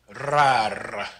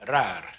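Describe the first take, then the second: First: The R has a long, heavy roll. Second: The R has only a light roll. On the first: The speaker calls it wrong. "you don't want to put too much of a roll on it" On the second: The speaker calls it right. "but just rar"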